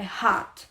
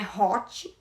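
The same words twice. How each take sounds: First: The vowel sounds like an 'ah'. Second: The vowel sounds like an open 'oh'. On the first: The speaker calls it right. "é como se fosse um A" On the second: The speaker calls it wrong. "que não é hot"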